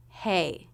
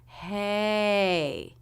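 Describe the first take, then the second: First: Said in the usual way. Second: "Hey" stretched slowly through a rise and fall; long, gliding "hey", up then down; drawn-out up-down curve. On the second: Shown as a demonstration. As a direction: draw out "hey" so its curve shows. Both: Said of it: "a little curve up and then a curve down".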